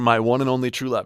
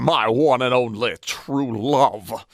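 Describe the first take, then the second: First: It is spoken in a plain, natural voice. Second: It is spoken in a put-on character voice. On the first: "that's boring old me" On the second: "this is a different accent than I thought would come out"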